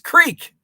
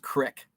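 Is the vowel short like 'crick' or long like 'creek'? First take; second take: creek; crick. First: It has a long vowel, like 'creek'. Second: It has a short vowel, like 'crick'. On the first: The speaker calls it right. "It's creek" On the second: The speaker calls it wrong. "I get annoyed when my mom says crick"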